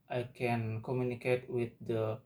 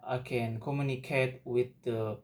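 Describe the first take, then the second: No difference in how they are said.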